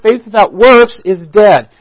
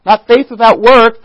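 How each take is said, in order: First: "works" plural, its s pressed firmly, falling to a close; correct version stressed. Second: "work" singular, stressed and held as the wrong answer; wrong version stressed. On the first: Preacher giving the congregation the right verse, stressing works. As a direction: hit "works" hard and let it settle. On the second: Preacher showing the congregation the wrong quote, stressing work. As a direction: weigh the word "work" as the mistaken reading. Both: Shown as a demonstration.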